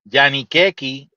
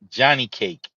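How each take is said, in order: First: The final E is pronounced: 'keki'. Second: The final E is silent: 'cake'. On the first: This is how Dominicans say the name. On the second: This is the usual English form of the name.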